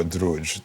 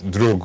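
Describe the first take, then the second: First: "Druj" ending on a soft j; soft-j pronunciation. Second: "Drug" ending on a hard g; hard-g pronunciation. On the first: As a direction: say "Druj" with a final j as in judge. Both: Shown as a demonstration. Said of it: "doesn't matter how you pronounce that one".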